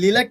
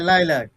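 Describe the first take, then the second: First: The first vowel sounds like 'ee'. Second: The first vowel sounds like 'eye'. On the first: The speaker calls it wrong. "এই লিলাক কেউ বলবে না" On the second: The speaker calls it right. "হ্যাঁ, লাইলাক"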